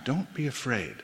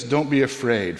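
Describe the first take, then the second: First: Don't be afraid, said far softer the second time; hushed second Don't be afraid; softer repeat. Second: Said in the usual way. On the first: Shown as a demonstration. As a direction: drop the voice right down for the repeat. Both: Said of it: "For the second time".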